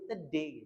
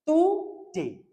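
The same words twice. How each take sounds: First: Today ringan tanpa mencucu, lebih pelan; Today diucapkan santai dan lembut; light native today. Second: Today dengan bibir mencucu, lebih tinggi dan keras; pursed-lip today. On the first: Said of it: "orang Inggris pun nyebutnya". (Today ala orang Inggris) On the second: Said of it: "Karena mencucu kan". (Today dengan bibir maju) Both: Shown as a demonstration.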